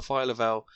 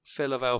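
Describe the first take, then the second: First: "Phyla-Vell" as FILE-uh-vell; long i in the first syllable of "Phyla-Vell"; pronounced file-a-vell. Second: "Phyla-Vell" as FILL-uh-vell; short i in the first syllable of "Phyla-Vell"; pronounced fill-a-vell. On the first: Adding the co-hosts' version, "Phyla-Vell" said file-a-vell. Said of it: "I've always said Phyla-Vell". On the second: British co-host using his own version, "Phyla-Vell" said fill-a-vell. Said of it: "always said Phyla because". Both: Shown as a demonstration.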